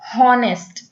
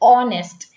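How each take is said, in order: First: The word begins with an audible h sound. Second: The word begins directly with a vowel sound. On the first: The speaker calls it wrong. "It is not हॉनेस्ट" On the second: The speaker calls it right. "एच silent हो जाता है"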